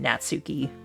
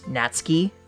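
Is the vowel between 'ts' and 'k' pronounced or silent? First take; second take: pronounced; silent. First: The u after ts is clearly pronounced. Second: The u after ts is silent, like ski. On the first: This is the pronunciation adapted for English speakers. "they pronounce it" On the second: This is the original Japanese pronunciation. "the way you're supposed to pronounce her name"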